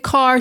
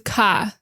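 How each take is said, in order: First: The final R sound is clearly pronounced. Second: The final R sound is dropped. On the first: This is the ordinary non-Boston way. "she doesn't say car" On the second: This is the classic Boston way. "she says car"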